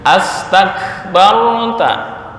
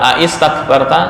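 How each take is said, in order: First: The word begins with 'as', as 'astakbarta'. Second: The word begins with a-i, as 'aistakbarta'. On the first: The speaker calls it right. "A ditambah istakbarta menjadi astakbarta" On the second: The speaker calls it wrong. "bukan dibaca aistakbarta, enggak"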